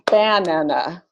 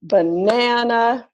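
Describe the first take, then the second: First: Banana with the first syllable stressed. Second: Banana with the middle syllable stressed, slow; stress on second syllable. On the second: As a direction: say Banana as ba-NA-na, stretched out. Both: Shown as a demonstration. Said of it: "Column three or column four?".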